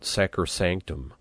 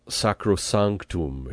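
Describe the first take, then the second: First: It is said with English-style vowels. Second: It is said with Latin-style vowels. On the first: The speaker calls it wrong. "It's not" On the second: The speaker calls it right. "be careful not to anglicize or Americanize too much words like"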